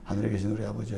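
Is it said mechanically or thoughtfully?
mechanically. It is rattled off mechanically like a spell.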